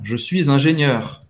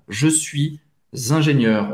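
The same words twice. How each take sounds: First: Said with a linking sound joining suis and ingénieur. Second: Said slowly, with no linking sound between words.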